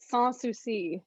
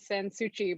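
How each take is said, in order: First: It is said with French-style S sounds throughout. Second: It is said the way an Italian name would be. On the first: The speaker calls it right. "it's French, so it's all S sounds" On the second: The speaker calls it wrong. "people think it's Italian, they always say Sansucci"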